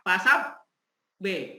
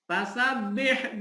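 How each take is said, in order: First: The doubled b is held with a break. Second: The doubled b is pressed and released at once. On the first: The speaker calls it wrong. "itu namanya ditahan dulu, itu tidak boleh" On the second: The speaker calls it right. "Ditekan tetapi langsung"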